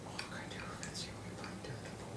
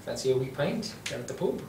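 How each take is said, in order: First: Fast whispered Irish accent; whispered Irish pub invitation. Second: Light Irish lilt offering a pint; a lightly done Irish pub voice; mild Irish accent. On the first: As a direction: whisper the Irish line to yourself. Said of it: "Are you talking to yourself?". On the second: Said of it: "go to the Irish". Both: Shown as a demonstration.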